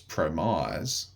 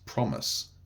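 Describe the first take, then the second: First: The last syllable has a long vowel, like 'eyes'. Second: The last syllable has a short vowel, like 'miss'. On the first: "the silent E is supposed to be raising the vowel sound here, ... and it is in compromise" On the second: "then suddenly it stops doing its job in the word promise"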